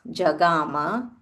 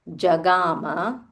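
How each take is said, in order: The two takes are said the same way.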